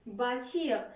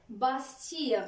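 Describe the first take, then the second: First: Said in the usual way. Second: "bâtir" with an S sounded before the T; original S sounded. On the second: Shown as a demonstration. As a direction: say "bâtir" the old way, as bas-tir. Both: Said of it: "الأصل ديال bâtir هي".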